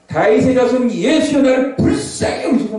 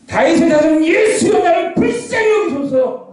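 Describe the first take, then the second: First: Restrained cry for mercy, raised pitch; сдержанный крик. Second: High, drawn-out shouted plea for mercy; all-out desperate shout. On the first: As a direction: call out slowly, holding the volume back. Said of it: "제가 소리 좀 낮췄어요". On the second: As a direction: cry out slowly at the top of the voice. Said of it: "피가 터지게 외치는 겁니다". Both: Acted.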